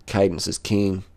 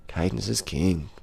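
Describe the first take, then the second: First: Said in the usual way. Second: Softer and slow, drifting off; slow, softer repeat like a mantra; soft slow echo. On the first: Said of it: "repeats phrase, then softer". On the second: Shown as a demonstration. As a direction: murmur it back to yourself, slowly. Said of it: "repeats phrase softer, slower".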